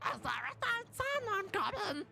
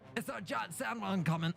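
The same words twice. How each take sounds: First: It is said in a raised-pitch, Stitch-like voice. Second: It is said in a lower-pitched character voice.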